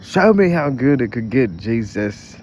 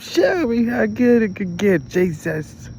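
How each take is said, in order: First: Sung, belting a gospel line, full voice; sung loud. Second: Sung much higher and louder, slow and stretched; sung, wail it up high like a gospel soloist. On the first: Playfully singing along to a worship song, belted out loud. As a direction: sing it out like church praise. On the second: Sung, trying the worship line again, now a high slow wail. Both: Pretend.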